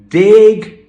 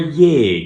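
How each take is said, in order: First: The word begins with a plain d sound. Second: The word begins with a soft y sound. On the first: The noun before it ends in a consonant. The speaker calls it wrong. "no aspiration" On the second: The noun before it ends in a vowel. The speaker calls it right. "So it's yeg"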